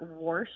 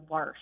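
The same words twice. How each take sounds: First: "warsh" with an "or" vowel, like war; rejected worsh version. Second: "warsh" with an "ar" vowel, like car; mother's warsh. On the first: Shown as a demonstration. Caller correcting the host's version, rounded OR pronunciation. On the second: Retold or imitated. Caller recalling how mom said it, open AR pronunciation. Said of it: "I recall her as saying".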